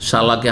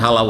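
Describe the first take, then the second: First: The word begins with an sh sound. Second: The word begins with an h sound. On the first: This is the standard form of the word. The speaker calls it right. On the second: This is the regional dialect form of the word. The speaker calls it wrong.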